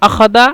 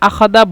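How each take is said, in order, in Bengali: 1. মাঝের ব্যঞ্জনটি একটি 'd' ধ্বনি। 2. মাঝের ব্যঞ্জনটি একটি 'd' ধ্বনি।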